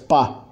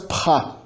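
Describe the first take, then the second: First: The p is released without a puff of air. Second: The p is released with a puff of air. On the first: The speaker calls it right. "as oclusivas iniciais surdas não se aspiram" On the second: The speaker calls it wrong. "não faz pá"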